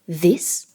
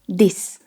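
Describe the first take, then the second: First: It begins with a th sound. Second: It begins with a d sound. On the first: "Instead of this" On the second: "try this"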